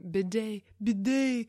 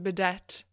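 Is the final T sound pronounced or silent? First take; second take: silent; pronounced. First: The final T sound is silent. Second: The final T sound is pronounced. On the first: The speaker calls it right. "you don't pronounce the T" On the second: The speaker calls it wrong. "you don't pronounce the T like I was doing for all my life"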